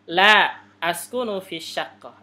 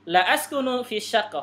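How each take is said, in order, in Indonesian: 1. Ada jeda setelah kata pertama. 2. Tidak ada jeda setelah kata pertama. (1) "Jadi kalau yang maksudnya tidak, tidak, ini berarti harus ada jeda ya" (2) "artinya saya tidak tinggal di apartemen"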